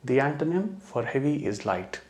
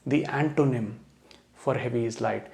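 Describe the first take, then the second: The two takes are said the same way.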